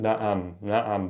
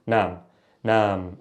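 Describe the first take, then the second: First: "naam" in two beats with an ayn; change in tone. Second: "naam" as one even syllable; no ayn. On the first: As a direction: bend the tone midway through "naam". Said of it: "change in the tone". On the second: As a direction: keep "naam" smooth, no tone change. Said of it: "versus naam". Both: Shown as a demonstration.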